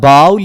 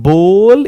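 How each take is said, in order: First: The vowel sounds like 'ow'. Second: The vowel sounds like 'oh'. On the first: The speaker calls it wrong. "It's not बाउल" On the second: The speaker calls it right.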